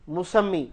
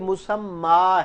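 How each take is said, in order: First: The word ends with an 'ee' vowel. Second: The word ends with an 'a' vowel. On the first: The speaker calls it wrong. "इसको लोग क्या पढ़ते हैं? मुसम्मी। ये मुसम्मी नहीं है" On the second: The speaker calls it right. "ये मुसम्मा है"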